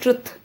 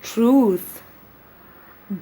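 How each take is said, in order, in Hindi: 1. स्वर एक छोटा 'u' है। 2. स्वर एक लंबा 'oo' है। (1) "ट्रुथ इज इनकरेक्ट, इसमें छोटी उ नहीं है" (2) "बल्कि लंबा ऊ है"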